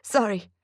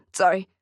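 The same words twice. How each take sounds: First: Tearful apology. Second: "Sorry." pushed out louder as the tears break; a firmer, crying "Sorry."; louder tearful apology. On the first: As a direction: apologize gently through welling tears. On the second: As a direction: repeat the apology, fighting the tears harder. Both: Acted. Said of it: "I promised myself I wouldn't cry".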